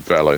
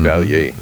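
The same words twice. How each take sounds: First: The double L sounds like an L. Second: The double L sounds like a Y. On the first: "they pronounce it Valle. ... It's not like a Y sound" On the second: "Or in Spanish, Valle"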